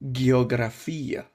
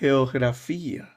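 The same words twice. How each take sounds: First: The G is hard, as in Russian. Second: The G is softer, as in Ukraine.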